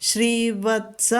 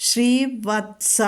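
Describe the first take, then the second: The two takes are said the same way.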